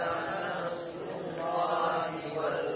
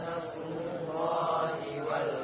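No difference in how they are said.

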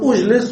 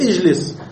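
First: The opening vowel is not an i sound. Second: The opening vowel is an i sound. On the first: The speaker calls it wrong. "لا نقول أجلس" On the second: The speaker calls it right. "اللام مكسورة فالألف مكسورة، نقول اجلس"

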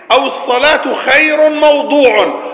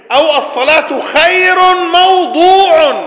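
Both takes have the same delivery.

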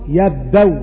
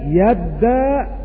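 First: The final hamza is replaced by a w sound. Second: The final hamza becomes a long a vowel. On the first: "تبدل واو في حال الوقف" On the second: "وفيها الإبدال"

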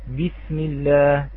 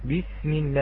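First: The b is firm, fully stopped and voiced. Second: The b is weak, lacking full stop and voicing. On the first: The speaker calls it right. "يأتي بترقيق الباء المراد مع صفتي الشدة والجهر" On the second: The speaker calls it wrong. "أم يقول"

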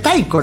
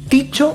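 First: The first syllable sounds like 'tai'. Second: The first syllable sounds like 'tee'. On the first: This is the way people usually say it. The speaker calls it wrong. "uno tiende a decirle Taiko" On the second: This is the correct way to say it. The speaker calls it right. "la forma correcta es Ticho"

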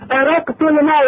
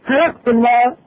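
First: The first word begins with a glottal stop. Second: The first word begins with an h sound. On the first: "تقلد الهمزة غالبا إلى هاء" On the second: "تقلد الهمزة غالبا إلى هاء"

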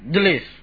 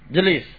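First: The word starts directly with a consonant cluster. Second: The same.

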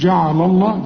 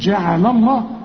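First: The sounds are heavy and thick. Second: The sounds are light and thin. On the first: The speaker calls it wrong. "ما تقولش جعل الله" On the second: The speaker calls it right. "رقق برضو"

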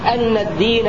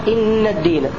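First: The first word begins with an a vowel. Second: The first word begins with an i vowel. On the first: "بفتح الهمزة" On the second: "بكسرها"

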